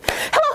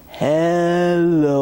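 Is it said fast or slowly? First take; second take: fast; slowly. First: It is said fast. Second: It is said slowly.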